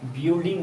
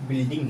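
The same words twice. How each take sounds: First: The u vowel is pronounced. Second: The u vowel is silent. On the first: The speaker calls it wrong. "बिल्डिंग नहीं है" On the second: The speaker calls it right. "ये बिल्डिंग है, यू silent है"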